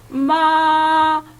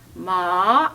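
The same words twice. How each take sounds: First: The pitch stays high and level throughout. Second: The pitch starts mid and rises to high. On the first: "오에서 시작해서 오 높이로 끝난다니까" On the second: "삼에서 시작해서 오까지 간다"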